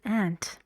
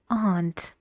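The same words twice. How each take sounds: First: It is said in an American accent. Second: It is said in a British accent. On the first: "In American English, you say aunt"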